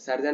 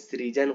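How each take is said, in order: First: The word begins with the syllable 'sar'. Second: The word begins with the syllable 'sri'. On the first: The speaker calls it wrong. "सर्जन नहीं" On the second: The speaker calls it right. "सृजन होती है"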